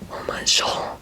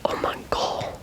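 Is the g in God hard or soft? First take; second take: soft; hard. First: The g in God sounds soft, like j. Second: The g in God sounds hard, like in go. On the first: The speaker calls it wrong. "you don't say" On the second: The speaker calls it right. "but you say"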